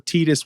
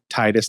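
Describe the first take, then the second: First: The first vowel sounds like 'ee'. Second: The first vowel sounds like 'eye'. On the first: This is how a speaker of another language might read the name. "I is pronounced as E" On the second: This is how most Americans say the name. "most of us in the U S would pronounce it Titus"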